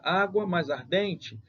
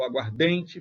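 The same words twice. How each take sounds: First: "Água mais ardente" drawn out slowly, stressing Á and DEN; stress on both words. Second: "aguardente" joined up, single stress on DEN; one stressed syllable. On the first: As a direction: separate "Água mais ardente" into two slow stressed parts. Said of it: "água tem sua sílaba tônica". ("Água mais ardente" devagar, com duas tônicas) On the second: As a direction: run "aguardente" together as one word, aguarDENte. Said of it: "ficou só uma sílaba tônica". ("aguardente" junto, só com a tônica DEN) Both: Shown as a demonstration.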